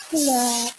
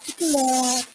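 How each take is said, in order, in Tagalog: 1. Sinasabi ito sa matamis at umaawit na accent na Ilonggo. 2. Sinasabi ito sa matamis at umaawit na accent na Ilonggo.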